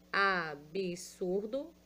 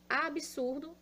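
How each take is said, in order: First: Absurdo slowed to a-bi-sur-do; slow syllable-split absurdo. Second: Said in the usual way. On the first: Shown as a demonstration. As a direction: stretch absurdo out, sounding each syllable.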